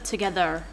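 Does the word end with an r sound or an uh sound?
r sound. The word ends with an r-colored er sound. The speaker calls it wrong. "if there's an er at the end, so in together, instead of together"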